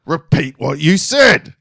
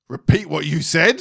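First: Loud, slow, higher mock teacher fury; shouted teacher demand. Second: Slow, higher imitation of a strict teacher; stern teacher demand. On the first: Imitating teacher pressing silent pupil harder, slow shouted demand. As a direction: punch out each word slowly and loudly. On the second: Imitating teacher confronting pupil, slow stern demand. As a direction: demand it slowly, pitch raised.

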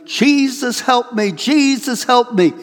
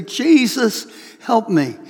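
First: High, loud cry of Jesus, help me; yelling for help. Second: A single surrendering call, no longer yelling; eyes-closed plea. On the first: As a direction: cry out in panic as the car plunges downhill. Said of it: "You're yelling". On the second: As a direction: hand it over to Jesus, eyes shut. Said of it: "close your eyes and say". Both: Retold or imitated.

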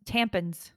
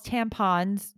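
First: "tampons" with a weak, reduced last vowel, like "tampins"; mum's pronunciation. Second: Said in the usual way. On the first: Retold or imitated. Daughter showing how mum says "tampons", ending like -pins. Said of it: "My mom calls tampons, tampons". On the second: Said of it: "My mom calls tampons".

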